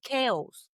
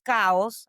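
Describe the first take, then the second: First: "chaos" said as KAY-os; "chaos" the English way, KAY-oss; corrected chaos. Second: "chaos" said as KAH-os; "chaos" with an open first vowel, like "cows"; mispronounced chaos. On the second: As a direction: say "chaos" with a Spanish "ah". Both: Retold or imitated. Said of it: "you should have said chaos".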